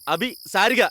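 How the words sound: There is a gap after the first two syllables. The speaker calls it wrong. "അതെന്തിനാ അഭിക്കും സാരിയൊക്കെ ഒരു gap?"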